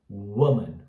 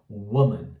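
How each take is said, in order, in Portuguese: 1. A primeira vogal é frouxa e curta. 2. A primeira vogal é frouxa e curta.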